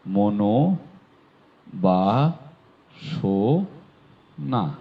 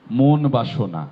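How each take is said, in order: First: মনোবাসনা stretched very slowly, mo-no-ba-sho-na; slow model মনোবাসনা; drawn-out correct pronunciation. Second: মন বাসনা as two separate words, mon bashona; the incorrect মন বাসনা, mon bashona; wrong split pronunciation. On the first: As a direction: linger over every syllable of মনোবাসনা. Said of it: "হয়ে যাবে". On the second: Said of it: "কোনোভাবে মন বাসনা নয়". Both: Shown as a demonstration.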